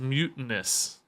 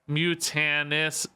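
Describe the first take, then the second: First: The stress falls on the first syllable. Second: The stress falls on the middle syllable. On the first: This is how many other people say the name. "I think a lot of people say mutinous" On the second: This is how the speaker says the name. "I tend to, I think, put emphasis on the middle of things fairly often"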